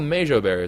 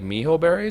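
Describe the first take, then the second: First: The middle consonant is a 'j' sound. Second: The middle consonant is an 'h' sound. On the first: The speaker calls it wrong. "I've been pronouncing it wrong this entire time" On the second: The speaker calls it right. "Apparently like miho berries or something like that"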